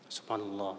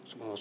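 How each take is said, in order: First: The word is repeated at a measured pace. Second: The word is repeated very fast. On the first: The speaker calls it right. "Begitu, Pak. Tapi kalau bisa jangan terlalu cepat" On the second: The speaker calls it wrong. "Enggak bagus"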